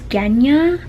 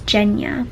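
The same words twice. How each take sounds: First: It begins with a hard G sound. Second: It begins with a soft J sound. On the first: The speaker calls it wrong. "I thought it was Genya" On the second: The speaker calls it right. "but it's Genya"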